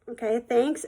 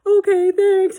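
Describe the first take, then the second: First: Mildly unsure, questioning lift at the end; retold awkward, polite thanks; hesitant thanks. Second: High, loud weepy squeak; mock tearful. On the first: Girl answering a stranger's compliment, hesitant. Taken aback by backhanded compliment. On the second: Girl crying on the phone to the apologizer, tearful. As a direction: imitate a crying child giving thanks. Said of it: "like, crying".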